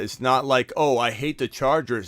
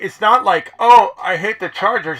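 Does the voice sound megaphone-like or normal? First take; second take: normal; megaphone-like. First: It is said in a normal speaking voice. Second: It is said in a tinny, megaphone-like voice.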